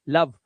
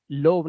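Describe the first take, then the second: First: लव with a short uh; लव said as "luhv"; correct vowel. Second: लोव with a long o, "lohv"; लोव as the mistaken reading with O; wrong vowel. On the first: (लव में छोटी अ की आवाज़) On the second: (लोव में ओ की आवाज़) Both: Shown as a demonstration. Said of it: "लोव नहीं".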